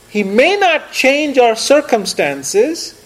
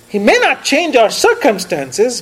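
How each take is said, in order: First: The phrase is spoken slowly and deliberately. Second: The phrase is spoken at a normal pace.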